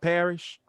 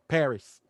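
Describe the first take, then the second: First: The name ends with an sh sound. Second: The name ends with an s sound. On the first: The speaker calls it wrong. "not Parrish" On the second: The speaker calls it right. "Paris, not Parrish"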